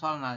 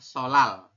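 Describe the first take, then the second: First: The middle n sound is clearly pronounced. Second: The middle n becomes an l sound. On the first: The speaker calls it wrong. "tapi kita bacanya bukan solnal" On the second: The speaker calls it right. "Jadi kita bacanya adalah solal"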